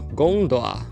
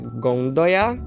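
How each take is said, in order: First: No consonant is heard between the final vowels. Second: A Y glide is heard between the final vowels. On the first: Some dialects say it this way. "em alguns só gondola" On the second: Many dialects say it this way. "em vários dialetos é gondoia"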